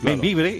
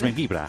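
First: The name is said the Spanish way, ending in e. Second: The name is said the Catalan way, ending in a.

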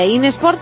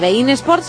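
First: Bein is read the way it is spelled. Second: Bein is read the way it is spelled.

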